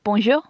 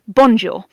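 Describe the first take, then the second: First: The syllables are stressed fairly evenly. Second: One syllable gets a heavy emphasis. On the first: The speaker calls it right. "I know that it's bonjour" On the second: The speaker calls it wrong. "not bonjour. It's not like that heavy emphasis"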